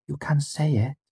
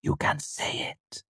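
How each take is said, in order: First: High, gentle encouragement; tender girl's voice, higher; gently. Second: Whispered, slow and tender; hushed slow whisper; soft whisper. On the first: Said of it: "Auri said gently". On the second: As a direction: breathe the words to him. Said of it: "Auri said softly". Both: A narrator's reading.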